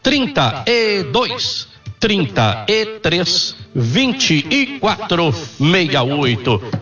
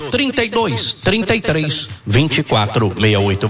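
First: The number is said slowly. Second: The number is said at normal speed.

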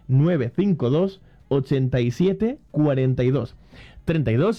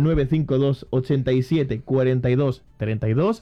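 First: It is said more slowly. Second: It is said at normal speed.

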